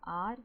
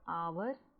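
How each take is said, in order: First: The word sounds like 'are', with one vowel sound. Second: The word sounds like 'hour', with two vowel sounds. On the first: "आवर या आर, ये दोनों सही हैं" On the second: "आवर या आर, ये दोनों सही हैं"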